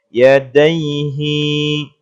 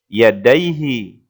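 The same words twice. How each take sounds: First: The final vowel is drawn out long. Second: The final vowel is kept short. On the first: The speaker calls it wrong. "bukan panjang bacanya, bukan yadaihi" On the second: The speaker calls it right. "tetapi yadaihi"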